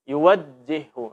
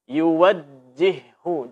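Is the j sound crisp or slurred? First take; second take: slurred; crisp. First: The j sound is slurred and indistinct. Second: The j sound is pronounced crisply and clearly. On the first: The speaker calls it wrong. "Ini tidak jelas" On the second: The speaker calls it right. "Mesti dibaca dengan jelas"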